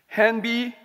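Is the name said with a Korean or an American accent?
Korean. The name is said with a Korean accent. The speaker calls it right.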